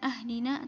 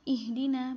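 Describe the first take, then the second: First: The word begins with an a vowel. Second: The word begins with an i vowel. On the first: The speaker calls it wrong. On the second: The speaker calls it right. "hamzah wasalnya juga dibaca kasrah"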